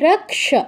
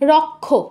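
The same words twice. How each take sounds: First: The cluster is said with a 'ks' sound. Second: The cluster is said with a 'kh' sound. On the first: The speaker calls it right. "কয়ের অর্ধ উচ্চারণ রক, আর স এর পূর্ণ উচ্চারণ স" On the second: The speaker calls it wrong. "প্রথম শব্দটা বাংলায় কি বলি?"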